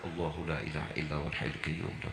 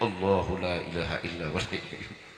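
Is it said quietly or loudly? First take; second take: quietly; loudly. First: It is said softly, under the breath. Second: It is said a bit louder, aloud.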